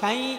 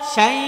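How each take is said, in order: First: The syllable is said with nasal resonance. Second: The syllable is said without nasal resonance. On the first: The speaker calls it wrong. "শাই এরকম যেন না হয়" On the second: The speaker calls it right. "শাই নাকে যেন না যায়"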